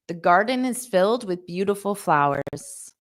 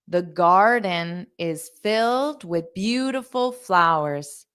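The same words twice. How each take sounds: First: The sentence is spoken at a fast pace. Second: The sentence is spoken at a slow pace.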